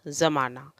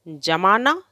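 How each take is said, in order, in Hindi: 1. शब्द की शुरुआत z ध्वनि से होती है। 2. शब्द की शुरुआत j ध्वनि से होती है।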